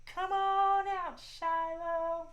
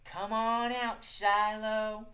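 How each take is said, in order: First: Much higher, slow, sugary call; sweetest voice. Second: Sweet call. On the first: Host models calling the shy squirrel, much higher sweet voice. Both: Shown as a demonstration. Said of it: "In your sweetest voice".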